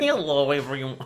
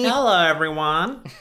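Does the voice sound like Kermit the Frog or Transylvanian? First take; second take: Transylvanian; Kermit. First: A put-on voice with a Transylvanian accent. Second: A put-on voice like Kermit the Frog. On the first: "That was like Transylvania" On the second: "You did your Kermit voice again"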